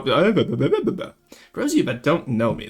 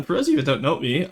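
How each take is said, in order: First: "For those of you that don't know me" restarted slowly and deliberately; "For those of you that don't know me" at half speed, like a fresh take. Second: Said in the usual way. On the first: Shown as a demonstration. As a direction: start over, slow and clear.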